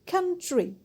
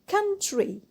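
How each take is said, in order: The two takes are said the same way.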